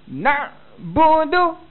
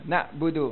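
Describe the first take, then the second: First: The ain sound is pressed very hard. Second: The ain sound is pressed moderately. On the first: This is acceptable while practising in class. "Tekan sungguh-sungguh tak apa" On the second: This is how to recite in front of people. "baru baru sedap sebut dia kan"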